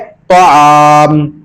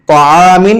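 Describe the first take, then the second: First: The word ends on the m sound. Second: The word ends with an in syllable. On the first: The reader stops on this word. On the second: The reading continues without stopping.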